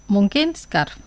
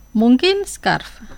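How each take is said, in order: First: Said in the usual way. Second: "Mungkin scarf" drawn out slowly, each syllable clear; slow teacher demo of "Mungkin scarf"; slow model. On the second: Shown as a demonstration. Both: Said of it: "Digo las palabras dos veces".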